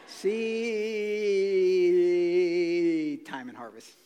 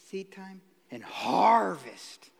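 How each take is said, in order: First: The word seed is stretched out very long. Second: The phrase is said quickly without stretching.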